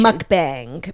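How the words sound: It is said with an American pronunciation. "the American version is"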